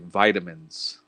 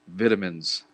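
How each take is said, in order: First: It is said with an American pronunciation. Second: It is said with a British pronunciation. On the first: "Americans say vitamins" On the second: "if you use British English"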